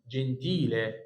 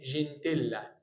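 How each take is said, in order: First: جنتيله with long stressed "tee", ending in e; جنتيله as Italian jen-TEE-leh, single l; correct pronunciation. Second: جنتيلا with short "tel", doubled l and final a; جنتيلا said wrongly, ending in -ella; wrong pronunciation. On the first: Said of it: "ايه جنتيلا دي؟". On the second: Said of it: "الناس بقى بتسمع كلمه اسمها". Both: Shown as a demonstration.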